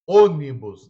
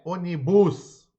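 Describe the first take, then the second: First: The stress is on the first syllable. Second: The stress is on a later syllable. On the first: The speaker calls it right. "a mais forte é a palavra proparoxítona" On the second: The speaker calls it wrong. "não é onibus"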